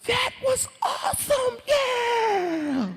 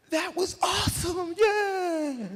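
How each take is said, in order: First: Very high, slow, stretched cheer; thrilled friend. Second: High, slow stretched whoop; thrilled cheer. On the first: Friend surfacing from the river, high elated cheer. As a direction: whoop it out like a thrill-seeker. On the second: Speaker surfacing to his friends, high elated cheer. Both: Retold or imitated.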